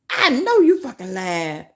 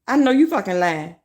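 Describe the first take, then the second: First: Lightly put-on voice, mocking the comment; mock viewer voice. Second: Said in the usual way. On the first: Streamer to her chat, mocking the viewer. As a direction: toss the chatter's words back at them.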